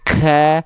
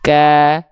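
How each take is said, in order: First: The breath keeps flowing out after the consonant. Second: The breath comes out as a brief puff. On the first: The speaker calls it wrong. "Gak sampai" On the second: The speaker calls it right. "itu cuma dipercikan saja nafasnya"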